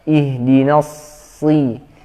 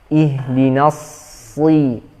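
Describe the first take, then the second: The two takes are said the same way.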